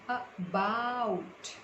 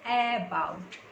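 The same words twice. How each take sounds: First: The stress is on the second syllable. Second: The stress is on the first syllable. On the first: The speaker calls it right. "we are putting pressure on ba" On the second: The speaker calls it wrong. "It's not about"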